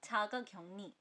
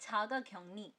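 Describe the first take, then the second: No difference in how they are said.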